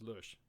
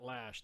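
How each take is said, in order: First: The vowel sounds rounded, like an umlaut vowel. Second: The vowel sounds like the one in 'ash'. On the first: The speaker calls it right. "it's pronounced with an umlaut. So if you see that it's it's pronounced Lush" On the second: The speaker calls it wrong. "So it's not Lash. There is no A in there"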